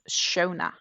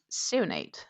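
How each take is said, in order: First: It is said with two syllables, like 'Shona'. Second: It is read letter by letter, like 'Seo-nade'. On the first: The name is said the way its owner says it. The speaker calls it right. "She's pronounced Shona" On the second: The name is read as it is spelled. The speaker calls it wrong. "which for me would be pronounced Seonade, but that's not how she's pronounced"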